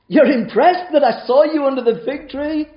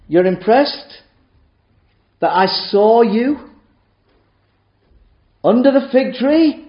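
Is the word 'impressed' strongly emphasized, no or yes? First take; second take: yes; no. First: The word impressed is strongly emphasized. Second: The word impressed gets no special emphasis.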